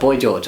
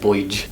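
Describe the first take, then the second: First: The two words are kept clearly separate. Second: The two words run together into one quick word.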